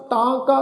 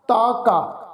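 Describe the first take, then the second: First: ਤਾਂ ਕਾ with nasal ਤਾਂ; nasalised vowel. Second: ਤਾ ਕਾ with pure oral long aa; without nasal. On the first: Teacher shows the dotted word meaning "then", nasalised ਤਾਂ ਕਾ. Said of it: "ਬਿੰਦੀ ਲਗਾ ਕੇ ਪਾਠ". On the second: Teacher shows the undotted word meaning "his", oral ਤਾ ਕਾ. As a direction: keep ਤਾ free of nasal before ਕਾ. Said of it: "ਬਿੰਦੀ ਰਹਿਤ". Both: Shown as a demonstration.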